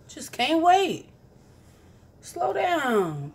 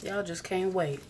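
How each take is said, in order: First: Mock scolding. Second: Said in the usual way. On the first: Vlogger teasing viewers who came back early, mock scolding.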